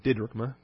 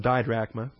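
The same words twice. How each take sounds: First: "didrachma" with a short I, stressed on the first syllable, "DIH-drachma". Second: "didrachma" said with a long I, like "dye-drachma"; "didrachma" with the Texas long I. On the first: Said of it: "It would use a shorter I sound". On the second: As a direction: say "didrachma" with the first syllable rhyming with "eye". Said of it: "wouldn't use a long I sound". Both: Shown as a demonstration.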